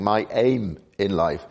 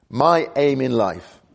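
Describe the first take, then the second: First: Said in the usual way. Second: "My" lifted and leaned on, slow; emphatic "My" set against others; stress on MY. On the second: Shown as a demonstration. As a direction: hit the word "My" hard, slowly. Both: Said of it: "the emphasis on my".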